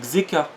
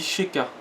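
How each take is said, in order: First: The name begins with a ks sound. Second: The name begins with a sh sound. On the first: The speaker calls it wrong. "sinon j'aurais dit Xeka, tu vois. Vu que c'est un X" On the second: The speaker calls it right. "Et ça se dit Sheka"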